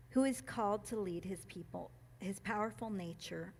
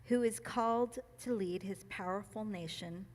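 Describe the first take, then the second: First: Reading nation as "nature" by slip; "powerful nature" said with "nature" in place of "nation"; misread line. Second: "nation" said clearly as NAY-shun; re-read carefully with "powerful nation" said right; corrected reading. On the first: Reader stumbling over the line while reading it aloud. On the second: Reader retrying the line after a slip, careful correction. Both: Real, not acted. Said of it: "sorry, let's try that again".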